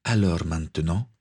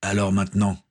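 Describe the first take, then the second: First: "Alors maintenant" rising into a question; "maintenant" left hanging on a rise. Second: Firm interruption with no questioning rise; cutting in. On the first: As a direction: lift the end of "maintenant" as a question. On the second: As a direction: cut the other speaker off on "Alors maintenant". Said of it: "coupa Gaël". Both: A narrator's reading.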